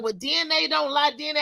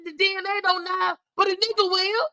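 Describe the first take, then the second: First: Said in the usual way. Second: Higher-pitched defiant retort, a hint of mockery; pitched-up sarcastic clapback; sassy comeback. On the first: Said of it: "my own mother was like". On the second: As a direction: snap back at the mother's line with attitude. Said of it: "I said".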